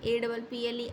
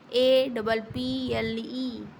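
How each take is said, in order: First: Said in the usual way. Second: Each letter said very slowly and clearly, ए, डबल, पी, एल, ई; slow spelling out. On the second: Shown as a demonstration. Teacher spelling apple for young kids, very slowly. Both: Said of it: "सबसे पहले बच्चे को सिखाया ही जाता है".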